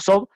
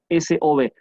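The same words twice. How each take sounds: First: It is read as a single word. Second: It is spelled out letter by letter. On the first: "En español diríamos S O B" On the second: "en inglés siempre hay que decir letra por letra"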